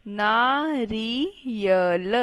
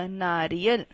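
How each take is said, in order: First: नारियल slowly split into naa, ri, ya, la; slow spelling-out reading of नारियल in four parts; syllable by syllable. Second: Said in the usual way. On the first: Shown as a demonstration. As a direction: sound out नारियल one stretched syllable at a time. Teacher sounds out word by syllables.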